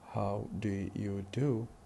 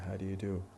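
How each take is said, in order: First: Do and you are said as separate full words. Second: Do and you merge into one weak syllable. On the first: "instead of saying how do you do" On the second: "we say how do you do"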